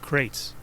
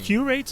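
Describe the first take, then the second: First: The name is said with one syllable. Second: The name is said with two syllables. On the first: "I always pronounce it as Crates because record crate" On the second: "Curates or is it Crates?"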